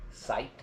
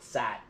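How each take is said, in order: First: Said in the usual way. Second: Sight with the I stretched into a broad drawled ah; overdone Southern drawl on sight; exaggerated southern I. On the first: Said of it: "S I G H T". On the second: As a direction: lean hard into the southern vowel in sight. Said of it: "really over-exaggerate the I".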